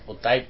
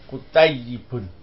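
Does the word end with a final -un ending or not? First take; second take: no ending; -un ending. First: The word is said without the final -un ending. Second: The word is said with the final -un ending. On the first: This is the shortened form used in everyday conversation. "biasanya disingkat kutayyib" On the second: This is the full correct form as it is written. "Yang betul tulisnya kutayyibun"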